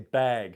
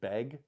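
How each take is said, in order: First: The vowel is a held, heavy 'a'. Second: The vowel sounds close to 'beg'.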